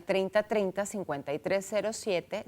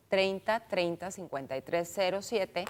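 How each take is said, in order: First: Said in the usual way. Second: Spaced-out digits, easy to jot down; slow repeat. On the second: Shown as a demonstration. Host repeats the phone number for listeners, slowly. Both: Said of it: "se lo repito despacito".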